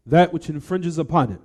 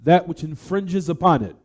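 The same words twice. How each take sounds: The two takes are said the same way.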